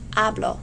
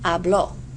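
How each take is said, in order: First: The stress is on the first syllable. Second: The stress is on the last syllable. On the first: I speak. "the present tense does not carry an accent" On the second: He or she spoke. "Hear the difference in the stress"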